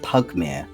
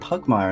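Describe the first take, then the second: First: The ending is said with a British pronunciation. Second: The ending is said the way the publishers say it. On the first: This is how the group has been saying it. "because we're British and that's how we pronounce the I R E" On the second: This is how the makers of the game say it. "the actual publishers ... to actually say like"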